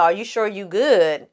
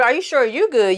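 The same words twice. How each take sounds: First: Said in the usual way. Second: "you" punched higher, thrown back as a retort; mock comeback leaning hard on "you"; stress on YOU. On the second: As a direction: turn it back on them, hit "you". Retold retort turned back on asker.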